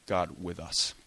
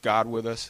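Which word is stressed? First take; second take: us; God. First: The stress is on us. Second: The stress is on God.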